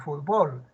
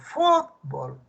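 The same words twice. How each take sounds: First: The stress is on the last syllable. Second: The stress is on the first syllable. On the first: This is how it is said in some other places. "para otros es palabra aguda" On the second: This is how it is said in Peru. "La sílaba tónica está en la penúltima sílaba, palabra grave"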